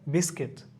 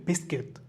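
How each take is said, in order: Both takes have the same delivery.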